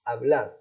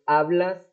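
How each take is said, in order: First: The stress is on the last syllable. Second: The stress is on the first syllable. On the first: This is the Argentine form used with vos. "הדגש הוא גם הולך לסוף המילה" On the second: This is the standard form used with tú. "במקום hablas"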